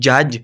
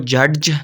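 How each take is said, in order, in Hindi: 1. अंतिम j से पहले कोई अलग d ध्वनि नहीं बोली जाती। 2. अंतिम j से पहले एक अलग d ध्वनि बोली जाती है।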